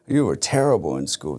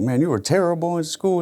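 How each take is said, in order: First: Said in the usual way. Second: Much higher, taunting put-on voice; mocking critic. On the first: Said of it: "It's like". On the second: People taunting him about his schooldays, higher mocking voice. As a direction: sing it out like a scornful old acquaintance. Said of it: "it's always like".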